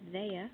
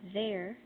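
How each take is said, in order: First: The final R is dropped. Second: The final R is sounded.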